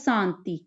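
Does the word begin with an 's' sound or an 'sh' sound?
s. The word begins with a plain 's' sound. This is how the Malwai dialect says the word. "ਸੱਸਾ ਉਚਾਰਿਆ ਜਾਂਦਾ ਹੈਗਾ"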